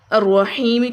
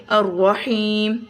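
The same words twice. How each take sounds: First: "الرحیم" with its final short i voiced; full word ending. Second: "الرحیم" with long ee, closed on m; stopped word ending. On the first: Teacher reading the word before stopping, "الرحیم" ending in -mi. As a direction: sound the ending of "الرحیم" as ar-raheemi. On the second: Teacher showing the stop form, "الرحیم" drawn out to a silent-vowel m. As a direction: stretch the ee of "الرحیم", drop the final vowel. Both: Shown as a demonstration. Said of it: "الرحیم کو پڑھیں گے الرحیم".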